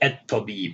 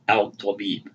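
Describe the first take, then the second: First: The L blends into a doubled T sound. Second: A clear L sound comes before the T. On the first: The speaker calls it right. "You say at Tabib" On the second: The speaker calls it wrong. "you don't say al Tabib"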